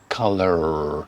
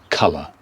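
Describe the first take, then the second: First: The word ends with a pronounced R sound. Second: The word ends with no R sound. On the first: "American English will go colour and pronounce the final R" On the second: "But in British English"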